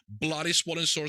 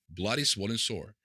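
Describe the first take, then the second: First: It is said with a British accent. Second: It is said in the speaker's plain accent.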